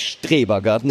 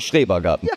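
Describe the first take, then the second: First: The word begins with an 'str' sound. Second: The word begins with an 'schr' sound. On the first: The speaker calls it wrong. "Aber es heißt nicht Strebergarten" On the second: The speaker calls it right. "sondern Schrebergarten"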